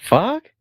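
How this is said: The word is said in a confused tone.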